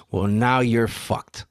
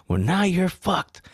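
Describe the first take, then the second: First: Slow retold verdict at usual pitch; drawn-out, understated pronouncement; deadpan verdict. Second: High, drawn-out mock yell; slow, high retold yell; cop yelling. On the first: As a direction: deliver it slowly, without yelling. Retold cop's verdict, first take. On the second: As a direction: imitate a yelling cop, pitched up. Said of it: "the cop was yelling at him".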